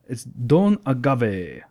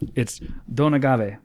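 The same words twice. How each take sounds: First: It is said in a put-on vampire voice. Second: It is said in an ordinary speaking voice. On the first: "I don't know why I said that in my vampire voice" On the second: "Let me try that again"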